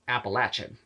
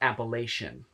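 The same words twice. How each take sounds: First: The middle syllable sounds like 'latch'. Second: The middle syllable does not sound like 'latch'. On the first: It is the local southern way of saying it. The speaker calls it right. "It's apple and then Latchin" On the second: It is the northern outsiders' way of saying it. The speaker calls it wrong. "That's how all the Yankees say it"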